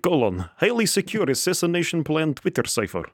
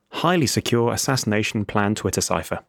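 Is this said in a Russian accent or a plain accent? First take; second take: Russian; plain. First: It is said in a put-on Russian accent. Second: It is said in the speaker's ordinary accent.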